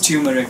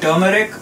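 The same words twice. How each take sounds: First: It is pronounced the American way. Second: It is pronounced the Indian way. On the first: "Here I've heard people pronouncing it mostly as turmeric" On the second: "In India, where I'm from, we call it turmeric"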